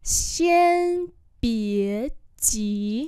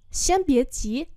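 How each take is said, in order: First: Each syllable drawn out slowly; slow teaching repeat. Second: Said in the usual way. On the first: Shown as a demonstration. Teacher slowly models the phrase for students, drawn out. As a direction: spell it out slowly for learners. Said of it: "slow repeat". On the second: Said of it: "normal model".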